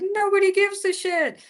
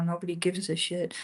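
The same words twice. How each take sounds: First: It is said in a cheerful, carefree tone. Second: It is said in a sad, dejected tone. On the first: The lack of attention is a freedom. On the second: The lack of attention is a disappointment.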